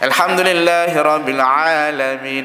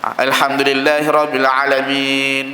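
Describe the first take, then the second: First: The vowel after ain is held longer. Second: The vowel after ain is held short. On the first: "macam dah panjang sikit. Itu dah memadai dengan panjang" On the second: "Kalau pendek, ... dia baca pendek"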